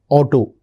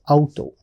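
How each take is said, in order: First: It is pronounced the English way. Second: It is pronounced the German way. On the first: "that's how we pronounce it" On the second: "But in German we pronounce it as Auto"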